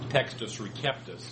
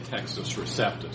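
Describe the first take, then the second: First: The c in Receptus is said as k. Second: The c in Receptus is not said as k. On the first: This is the classical Latin pronunciation. "In classical Latin, that C would be pronounced like a K" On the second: This is the usual English-style pronunciation. "usually anglicized"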